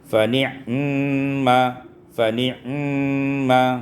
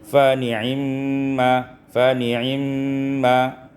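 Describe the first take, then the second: First: The ain has no vowel after it. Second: The vowel after the ain is briefly shortened. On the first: "dibaca dengan sukun ain" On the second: "Dicepatkan uh, ainnya karena itu ikhtilas, dibaca dua per tiga saja"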